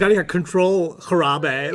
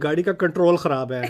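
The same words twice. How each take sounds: First: Control is said with an American accent. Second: Control is said with a Pakistani accent. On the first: "I won't say" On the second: "I actually say them the way you're supposed to say them in Pakistani Urdu"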